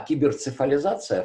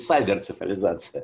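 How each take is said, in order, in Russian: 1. Первый слог произносится как 'kee'. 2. Первый слог произносится как 'sigh'. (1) "вполне" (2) "по-американски он говорит"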